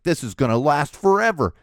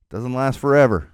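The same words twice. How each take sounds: First: Despairing parent. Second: Said in the usual way. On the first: Retold or imitated. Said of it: "You're like".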